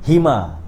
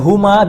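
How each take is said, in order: First: The first vowel is an 'i' sound. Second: The first vowel is a 'u' sound. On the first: The pronoun follows a preposition with a lower vowel. "suddenly it become bihima" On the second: The pronoun stands on its own. "the original is huma"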